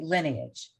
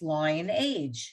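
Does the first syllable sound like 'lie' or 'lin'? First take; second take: lin; lie. First: The first syllable is a short 'lin' sound. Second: The first syllable is a long 'lie' sound. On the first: The speaker calls it right. "Harriet said it correctly" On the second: The speaker calls it wrong. "why is it not pronounced lion-age?"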